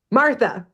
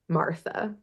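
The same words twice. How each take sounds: First: Raised pitch, restrained shout; mild narrated shout. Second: Softly spoken, trailing lift at the end. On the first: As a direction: call it out suddenly without full volume. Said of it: "she shouts". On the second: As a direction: say it faintly, barely reaching the listeners. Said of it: "hear very softly Mimi". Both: A narrator's reading.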